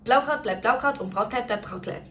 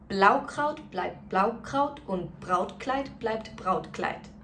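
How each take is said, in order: First: It is said as fast as possible. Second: It is said at a moderately quicker pace. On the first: "let's do it as fast as we can" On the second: "let's do it a little bit quicker"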